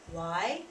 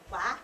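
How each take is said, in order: First: Said in the usual way. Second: "wah" as one open ah vowel with no glide at the end; southern "wah" for "why". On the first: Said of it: "we say why". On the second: Shown as a demonstration. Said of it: "they say wah".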